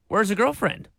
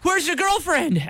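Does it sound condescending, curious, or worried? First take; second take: curious; worried. First: It sounds like a genuinely curious question. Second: It sounds anxious and worried about her.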